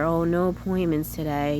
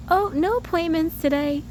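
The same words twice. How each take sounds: First: A touch of disappointment, put on; sad. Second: High, breezy singsong report; carefree. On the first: Shown as a demonstration. Reporting no appointments to protect herself, mildly sad. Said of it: "maybe a sad way". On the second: Retold or imitated. Imitating the lady who said it, carefree. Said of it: "Just, like, carefree".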